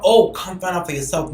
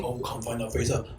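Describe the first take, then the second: First: Said in the usual way. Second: Imitating him, lower and soft, teasing; mock sultry reply. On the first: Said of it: "You over here talking about". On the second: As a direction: drop the voice low and coy. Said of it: "that sound like on some".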